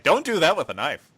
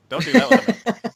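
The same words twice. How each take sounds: First: Firm raised warning voice; stern raised warning; emphatic warning. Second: Much higher and louder, yelling it; panicked high-pitched yell; shrill shouted warning. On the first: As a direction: spell it out in all caps. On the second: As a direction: scream the warning in caps. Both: Retold or imitated. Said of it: "in all caps".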